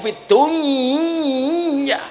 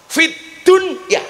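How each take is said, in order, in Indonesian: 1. Bunyi n menyatu dengan bunyi y setelahnya. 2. Bunyi n diucapkan dengan jelas sebelum y. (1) "Idgham niku" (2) "harus dibaca idhar bukan idgham"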